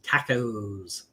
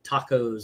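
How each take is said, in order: First: It is said in an English accent. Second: It is said in a plain American accent.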